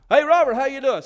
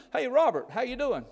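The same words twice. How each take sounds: First: Much louder, higher imitation of a hearty hello; loud hailing greeting. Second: Higher-pitched mock hello in passing; friendly greeting. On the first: Townsperson insists on the wrong name, loud hailing greeting. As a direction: call out as if hailing someone across the street. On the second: Shopper greets the preacher by the wrong name, friendly higher-pitched greeting. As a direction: lightly imitate a townsperson saying hi.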